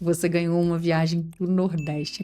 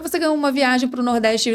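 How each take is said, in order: First: It is spoken slowly with deliberate pauses. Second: It is spoken quickly without deliberate pauses. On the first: The speaker calls it right. "se eu falar com você pausadamente" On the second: The speaker calls it wrong. "do jeito que eu estou falando com você"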